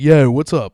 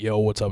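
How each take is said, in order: First: It is said in a Baltimore accent. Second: It is said in a plain, neutral accent. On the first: "You just sounded like Stavros Halkios, who is from Baltimore" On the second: "if they were trying to say"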